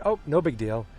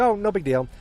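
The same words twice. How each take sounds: First: Said in the usual way. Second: High, louder breezy shrug-off; mock nonchalant. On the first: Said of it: "[name] would say". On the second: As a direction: toss it off like nothing happened. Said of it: "he would've been like".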